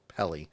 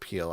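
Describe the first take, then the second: First: The name is said as Pele. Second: The name is said as Peel. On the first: The speaker calls it right. "I actually think it's Pele" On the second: The speaker calls it wrong. "not Peel. I think I pronounced it wrong"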